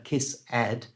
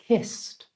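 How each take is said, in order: First: The ending is said as an extra syllable. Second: The ending is a short t sound. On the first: The speaker calls it wrong. "never ed, it's never kiss ed" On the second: The speaker calls it right. "it's just kissed"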